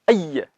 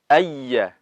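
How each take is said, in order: First: The doubled y is cut off abruptly. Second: The doubled y flows on with continuing breath. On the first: The speaker calls it wrong. "tidak boleh ayya. Tidak boleh seperti itu. Nanti akan lari ke, ke sifat syiddah" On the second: The speaker calls it right. "Jadi nabernya itu harus berjalan"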